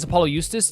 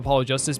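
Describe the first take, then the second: First: The J sound of Justice is pronounced differently. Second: The J sound of Justice is pronounced normally.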